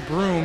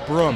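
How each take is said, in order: First: Broom is said with a standard long vowel. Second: Broom is said with a short 'brum' vowel. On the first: This is the form not used by the father. "who doesn't use a broom" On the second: This is how the father says it. "He uses a broom"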